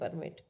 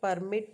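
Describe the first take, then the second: First: The stress is on the first syllable. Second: The stress is on the second syllable. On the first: It is a noun naming a document. "the word permit is stress on the first syllable" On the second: It is a verb meaning to allow. "The word permit stress on the second syllable"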